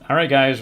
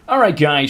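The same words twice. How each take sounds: First: The voice is flat and monotone. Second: The voice is lively and animated. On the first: This is how the speaker talks normally. "my voice is kind of it's kind of monotone" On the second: This is a put-on streamer persona. "I could do like a streamer voice"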